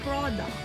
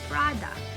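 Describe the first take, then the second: First: The first vowel is a rounded 'o' sound. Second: The first vowel is an open 'a' sound. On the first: The speaker calls it wrong. "They say pro, pro, product" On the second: The speaker calls it right. "which is should be pra, product. So the letter O should not be pronounced. It's like a letter A"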